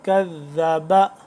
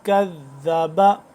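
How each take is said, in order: The two takes are said the same way.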